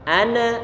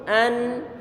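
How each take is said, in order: First: The n is released with an added bouncing vowel. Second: The n is held smoothly without a release. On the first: The speaker calls it wrong. "maka nanti muncul qalqalah, bacaannya salah" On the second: The speaker calls it right. "ini suara tahan dengan huruf nun nih"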